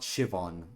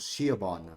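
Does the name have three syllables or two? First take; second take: two; three. First: The name is said with two syllables. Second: The name is said with three syllables. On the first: The speaker calls it right. "not Shivon" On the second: The speaker calls it wrong. "I thought Shiobon's pronunciation was Shiobon"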